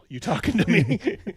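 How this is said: It is said as a Travis Bickle impression.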